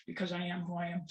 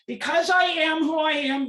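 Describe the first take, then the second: First: Softer, sober statement; subdued repetition. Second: High, loud, forceful protest; impassioned declaration. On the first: Parent repeating the reason rights were taken, subdued repetition. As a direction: let it drop to a quiet close. Same words repeated softly afterwards. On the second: Parent stripped of rights addressing an audience, impassioned declaration. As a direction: raise the voice sharply and declare it. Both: Real, not acted.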